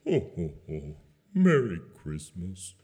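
It is said in a sad, depressed way.

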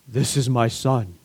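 It sounds like Darth Vader's voice.

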